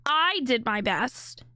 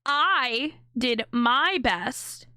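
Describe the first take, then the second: First: Slow, rising "I did my best" with "I" leaned on; mock the speaker's "I" slowly; mimicking stress on I. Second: Slow, heavy weight on "I" in "I did my best"; stress on I. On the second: Shown as a demonstration. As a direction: lean hard on the "I", drawn out slowly. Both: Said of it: "Notice the inflection on the word".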